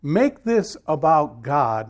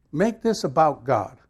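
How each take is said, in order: First: "Make this about God" said very slowly, each word weighed; slow emphatic. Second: Said in the usual way. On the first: Shown as a demonstration. Pastor stressing his ten-day thought to the church, slow and weighty.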